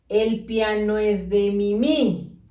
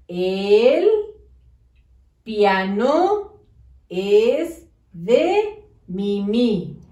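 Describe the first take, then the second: First: "El piano es de Mimi" slowly glued into one chunk; run together. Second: "El", "piano", "es de Mimi" with pauses, the end very slow; words spaced apart. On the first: Teacher showing pupils the unspaced sentence. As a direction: read "El piano es de Mimi" with no breaks between words. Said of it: "¿Se entiende lo que dice? No, ¿verdad?". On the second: Teacher to pupils, slow, each word apart. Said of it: "Debe de decir". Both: Shown as a demonstration.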